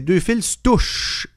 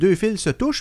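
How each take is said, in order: First: The se is reduced to a bare s sound. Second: The word se is said as a full syllable. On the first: The speaker calls it right. "S apostrophe" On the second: The speaker calls it wrong. "J'ai dit deux fils se touchent, mais dans le fond, je devrais le prononcer mieux"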